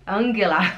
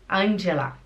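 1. O nome é dito com pronúncia alemã. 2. O nome é dito com pronúncia italiana. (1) "E a Angela? Angela" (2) "Ou pela influência italiana, a pessoa fala Angela"

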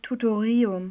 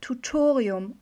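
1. Die Betonung liegt auf einer anderen Silbe. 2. Die Betonung liegt auf der zweiten Silbe. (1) "und nicht Tutorium" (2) "Es heißt Tutorium"

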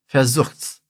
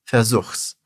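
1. O pronome encolhe para um s no verbo. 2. O pronome encolhe para um s no verbo.

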